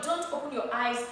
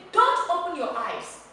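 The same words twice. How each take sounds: First: "Don't open your eyes" said mildly with the tone sinking; weak, falling delivery of "Don't open your eyes"; tone going down. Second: "Don't open your eyes" pitched high and loud as an order; raised, forceful delivery of "Don't open your eyes"; commanding tone. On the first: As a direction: let "Don't open your eyes" drop like a request, not an order. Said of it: "your tone is going down". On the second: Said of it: "you are commanding such a person". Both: Shown as a demonstration.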